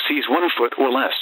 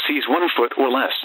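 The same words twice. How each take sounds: The two takes are said the same way.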